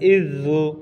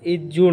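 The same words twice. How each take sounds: First: The consonant is a soft z-like sound. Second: The consonant is a hard j sound. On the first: The speaker calls it right. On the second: The speaker calls it wrong.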